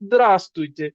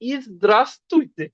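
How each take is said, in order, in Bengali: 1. শব্দটি সেই প্রথম সিলেবল ছাড়া শুরু হয়। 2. শব্দটি একটি পূর্ণ বাড়তি প্রথম সিলেবল দিয়ে শুরু হয়। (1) "শুধু দ্রাস তুইতে" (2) "ফর্মাল বলার সময় মানে একদম পারফেক্টলি বলতে গেলে"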